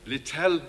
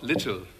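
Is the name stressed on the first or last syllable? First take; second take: last; first. First: The stress is on the last syllable. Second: The stress is on the first syllable. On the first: The speaker calls it right. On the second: The speaker calls it wrong.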